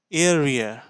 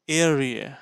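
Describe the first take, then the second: No difference in how they are said.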